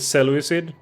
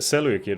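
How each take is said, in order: First: The c is sounded like an s. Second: The c is sounded like a k. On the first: The speaker calls it wrong. "I always pronounced it" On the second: The speaker calls it right. "Greeks always pronounce the C, the C's as K"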